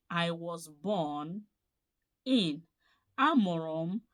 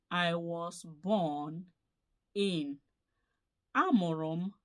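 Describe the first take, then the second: No difference in how they are said.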